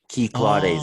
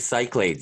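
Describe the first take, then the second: First: The name begins with a 'key' sound. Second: The name begins with a 'sick' sound. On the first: The speaker calls it right. "I guess" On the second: The speaker calls it wrong. "as I say it"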